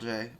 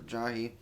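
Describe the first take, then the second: First: The name is said as 'Jay'. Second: The name is said as 'Jahi'. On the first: This is the older way the speaker used to say it. The speaker calls it wrong. "I used to say Jay" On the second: This is the way the speaker now says it. The speaker calls it right. "Or Jahi"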